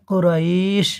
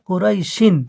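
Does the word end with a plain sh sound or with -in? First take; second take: plain sh; -in. First: The word stops on sh with a lengthened vowel. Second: The word ends in -in, joined onward. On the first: The reciter pauses at the end of the verse. "এই আয়াতের জায়গায় দাঁড়ালে আপনাকে পড়তে হবে কুরাইশ" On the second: The verse is joined to the next one. "মিলিয়ে পড়লে কুরাইশিন"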